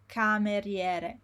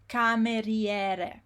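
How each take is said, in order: No difference in how they are said.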